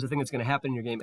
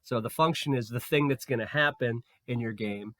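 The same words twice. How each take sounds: First: Rattled off quickly; fast. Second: Said in the usual way. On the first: Shown as a demonstration. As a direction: rush through the repeat. Restates the same sentence faster.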